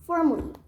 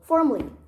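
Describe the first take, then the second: First: The word is said with two syllables. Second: The word is said with two syllables.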